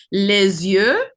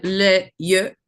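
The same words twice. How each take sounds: First: Les yeux with the s linked as a z, "lez-yeux"; liaison made. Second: Imitating les yeux with the s silent, "lay yeux"; les and yeux kept apart, no z between; liaison missed. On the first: Shown as a demonstration. Judge showing a singer the missed French liaison, linked. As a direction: run les into yeux with a z sound between. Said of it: "couple of liaisons that you didn't do". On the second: Judge mimicking the singer's French slip, liaison dropped. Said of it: "You said les yeux".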